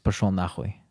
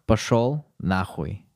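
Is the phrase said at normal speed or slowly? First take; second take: normal; slow. First: The phrase is said at normal speed. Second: The phrase is said more slowly.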